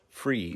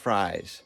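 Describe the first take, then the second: First: The word rhymes with 'freeze'. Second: The word rhymes with 'flies'. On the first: The speaker calls it right. "but it's pronounced Fries, / Freeze" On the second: The speaker calls it wrong.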